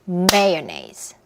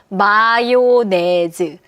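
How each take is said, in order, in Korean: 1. 세 박자에 첫 박이 강하네요. 영어 리듬이에요. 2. 음절 네 개가 고르게, 한국식 철자대로 읽혔어요. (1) "리듬 자체는 다라라. 요 리듬이에요" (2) "철자를 보시면요. 마요네즈를 읽어야 될 것 같아요"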